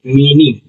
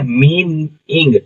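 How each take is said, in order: First: Said in the usual way. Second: "मीन इंग" slowly, as two separate pieces; split into parts. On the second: Shown as a demonstration. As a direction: sound out "मीन" and then "इंग". ("मीन इंग" दो हिस्सों में अलग-अलग, धीरे) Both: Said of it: "ING हमारा इंग हो जाता है".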